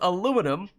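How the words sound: It has four syllables, ending in 'num'. "which is how you spell and pronounce that word in American English"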